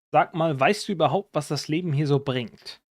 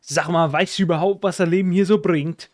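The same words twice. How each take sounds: First: Said in the usual way. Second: Thick Northern German dialect, a bit higher and louder; broad Northern German accent, lively. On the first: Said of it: "And in High German it would be". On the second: Shown as a demonstration. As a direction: say it the way the Northern German rapper does. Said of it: "He's like".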